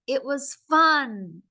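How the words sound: The voice lifts up on the word fun. The speaker calls it right. "I want to be like, Do you see how I lift my voice up with these words?"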